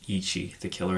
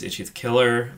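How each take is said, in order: First: "Ichi" with a long ee, as EE-chee; careful, softer EE-chee on "Ichi"; corrected pronunciation. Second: "Itchy" with a short i, like the word itchy; mistaken pronunciation. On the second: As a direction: say "Itchy" to rhyme with witchy. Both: Real, not acted. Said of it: "I keep calling him Itchy".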